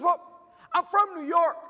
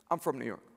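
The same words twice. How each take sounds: First: High imitated female voice; mock-perky young lady; excited young woman. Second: Low, soft echo of her line; understated disbelief; deadpan repeat. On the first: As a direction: mimic her explaining, pitched way up. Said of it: "She goes". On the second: Retold or imitated. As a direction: repeat it drily, dropped well down.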